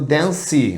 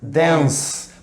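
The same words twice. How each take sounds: First: The word does not end in plain S. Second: The word ends in a plain S sound. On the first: The speaker calls it wrong. "tem muito brasileiro por aí dizendo dance. Não tem dance não" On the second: The speaker calls it right. "Parece que termina com S"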